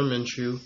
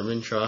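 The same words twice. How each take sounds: First: Minshew ending in a "shoe" sound; first pronunciation. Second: Minshaw ending in a "shaw" sound; alternative pronunciation. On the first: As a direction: say Minshew as MIN-shoo. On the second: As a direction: say Minshaw as MIN-shaw, offered as a guess. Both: Shown as a demonstration. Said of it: "however you pronounce it".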